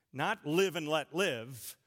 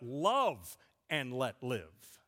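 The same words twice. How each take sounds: First: Said in the usual way. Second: LOVE drawn out slowly, lower overall; stress on LOVE. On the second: Shown as a demonstration. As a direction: stretch the word "love", then let "and let live" settle. Corrected saying set against first.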